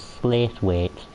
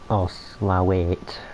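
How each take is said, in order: First: It is pronounced as spelled, Slaithwaite. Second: It is pronounced fully, ending in Slowate. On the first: The speaker is not from Yorkshire. "everyone who doesn't come from Yorkshire will say as Slaithwaite, which it isn't" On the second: The speaker is being fancy about it. "if you want to be fancy about it and not drop"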